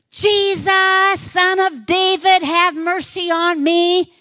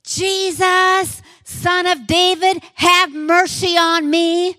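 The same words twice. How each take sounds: First: High, loud, drawn-out cry; louder desperate shout. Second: Full-voiced cry, much higher and louder; desperate shout. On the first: Acted. Blind man shouting over the crowd for Jesus, desperate loud cry. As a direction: shout it even louder than everyone. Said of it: "he just shouted even louder". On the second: Blind beggar shouting to Jesus from roadside, desperate loud cry. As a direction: cry out for mercy with everything. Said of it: "And so he shouts".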